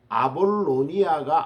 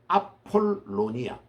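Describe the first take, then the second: First: The second consonant is a soft b sound. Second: The second consonant is a strong p sound. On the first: The speaker calls it wrong. "아볼로니아가 아니고" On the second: The speaker calls it right. "피 발음이 우리 한국말에 있기 때문에"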